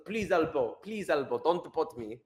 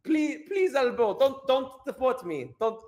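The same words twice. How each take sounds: First: Mock plea in attempted Afrikaner accent. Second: High-pitched mock begging; pleading deportee. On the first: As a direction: beg with a rough try at Afrikaner. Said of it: "how do I do an Afrikaner accent". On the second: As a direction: beg in a high, panicky mock voice. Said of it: "He's going like".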